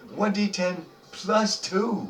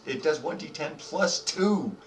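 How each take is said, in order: First: "One D ten plus two" drawn out, higher, each word stressed; slow, emphatic repeat. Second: Said in the usual way. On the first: Shown as a demonstration. DM savors the stinger damage to players, slow and stressed. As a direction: lean on "plus two" slowly.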